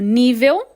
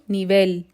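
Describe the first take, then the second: First: It carries the Portuguese stress pattern. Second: It carries the Spanish stress pattern. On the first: "Em português eu digo nível" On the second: "em espanhol eu digo nivel"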